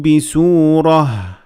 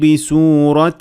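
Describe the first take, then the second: First: The word ends with an h sound. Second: The word ends with a t sound. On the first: The reading stops at this word. "When you stop at ta marbuta, you pronounce it as ha" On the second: The reading continues past this word. "but when you keep on reading, it becomes a ta"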